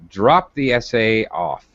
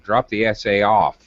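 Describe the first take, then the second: First: The stress is on the verb drop. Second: The stress is on the particle off. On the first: "I can move the stress from the verb" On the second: "to the particle"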